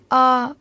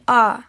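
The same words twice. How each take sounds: First: The syllable is said in the level first tone. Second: The syllable is said in the falling fourth tone. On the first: "спокойно первым тоном" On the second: "четвертым"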